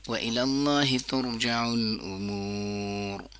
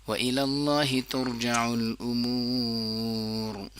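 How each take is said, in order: No difference in how they are said.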